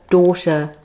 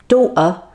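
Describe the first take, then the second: First: The t is pronounced as a clear t. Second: The t is replaced by a glottal stop. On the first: "instead of saying" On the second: "the T would be a glottal stop"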